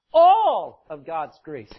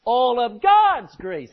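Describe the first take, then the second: First: ALL loud and drawn out, the rest falling away; slow phrase, big weight on All; stress on ALL. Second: God's punched loud and high; slow build that lands hard on God's; stress on GOD'S. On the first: Preacher drilling the phrase into the congregation, stress on All. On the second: Preacher repeating the phrase to the congregation, stress on God's. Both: Shown as a demonstration. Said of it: "Put the emphasis on it".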